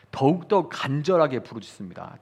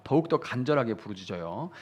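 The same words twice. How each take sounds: First: 간절하게 pressed hard and stretched; emphatic. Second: Said in the usual way. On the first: Shown as a demonstration. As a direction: lean into 간절하게 with urgency. (간절하게를 힘주어)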